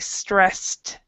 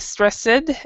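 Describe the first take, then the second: First: The word ends with a T sound. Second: The ending is not a plain T sound. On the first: The speaker calls it right. "we say stressed. So it's like a T at the end" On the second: The speaker calls it wrong. "we don't say stressed when there's an S"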